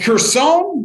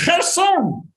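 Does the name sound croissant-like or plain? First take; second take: croissant-like; plain. First: The name sounds rather like the word croissant. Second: The name does not sound like the word croissant. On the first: The speaker calls it wrong. "It sounds like a croissant" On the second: The speaker calls it right. "It's Kherson"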